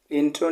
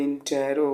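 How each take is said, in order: First: इंट्रो as two syllables, in-tro; इंट्रो, no vowel between t and r; mispronunciation shown. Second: इंटेरो as three syllables, in-te-ro; इंटेरो, a vowel between t and r; corrected pronunciation. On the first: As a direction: say इंट्रो with t and r run together. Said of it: "इंट्रो नहीं होता है". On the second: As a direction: say इंटेरो with a clear "te" before "ro". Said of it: "ये इंटेरो होता है". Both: Shown as a demonstration.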